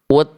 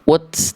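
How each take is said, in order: First: The final t is released with a breath puff. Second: The final t is followed by a hissing s. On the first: The speaker calls it right. "hanya percikan nafas aja" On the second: The speaker calls it wrong. "jangan sampai ada keluar bunyi es ya"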